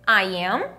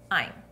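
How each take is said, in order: First: Two separate full words are said. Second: One shortened syllable is said. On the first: "Aqui eu pronuncio I am" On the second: "Eu encurtei o som"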